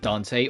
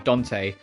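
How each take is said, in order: First: The name is said in a casual everyday way. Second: The name is said in a careful, deliberate way. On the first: The speaker calls it wrong. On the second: The speaker calls it right.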